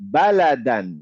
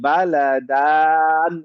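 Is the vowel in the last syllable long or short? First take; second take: short; long. First: The vowel in the last syllable is short. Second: The vowel in the last syllable is long. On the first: The speaker calls it right. "আমি কিন্তু দানে টান দিচ্ছি না" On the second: The speaker calls it wrong. "এটাতে কনফিউশন না যে বালাদান এরকম"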